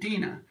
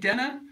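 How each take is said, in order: First: The first vowel sounds like 'ee'. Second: The first vowel sounds like 'eh'. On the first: The speaker calls it right. "Dina, not Denna, Dina, right?" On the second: The speaker calls it wrong. "not Denna"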